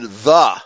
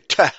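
First: The word begins with a soft th sound. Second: The word begins with a hard t sound. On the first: The speaker calls it right. "pronounce the TH as in" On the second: The speaker calls it wrong. "They say teh"

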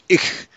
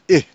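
First: The final ch sound is clearly pronounced. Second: The final ch sound is left off. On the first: This is the standard High German form. "They don't pronounce it ich" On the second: This is the shortened Low German form. "They drop the CH"

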